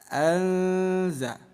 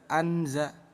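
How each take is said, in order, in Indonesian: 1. Bunyi n teredam dan dipanjangkan secara sengau. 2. Bunyi n diucapkan dengan jelas dan tegas. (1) "Bunyi nun kita samarkan selama dua harokat" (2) "Jangan dibaca jelas"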